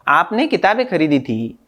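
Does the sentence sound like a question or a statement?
statement. It is said plainly as a statement. It states that the books were bought. "सामान्य वाक्य भी हो सकता है"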